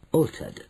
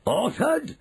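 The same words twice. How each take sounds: First: Said in the usual way. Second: ALTERED shot up very high as a question; incredulous ALTERED, pitch leaping upward; shouted echo. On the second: A narrator's reading. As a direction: echo ALTERED back in rising outrage. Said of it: "shouted Mister Jenkins".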